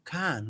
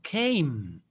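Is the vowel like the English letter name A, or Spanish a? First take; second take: Spanish a; letter A. First: The vowel is a short, Spanish-like a. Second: The vowel sounds like the English letter A. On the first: The speaker calls it wrong. "no va a sonar como así can, no" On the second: The speaker calls it right. "Va a sonar came"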